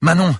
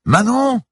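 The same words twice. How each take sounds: First: High, loud shout; urgent raised call; yelled question. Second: Very high, drawn-out shout; straining high yell; repeated yell. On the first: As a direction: shout the name across the water. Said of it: "hurla-t-elle soudain". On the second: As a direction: bellow the name to be heard. Repeats shouted words to be heard. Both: A narrator's reading.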